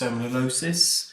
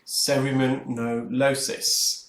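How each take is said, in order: First: The word is said at normal speed. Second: The word is said slowly, syllable by syllable.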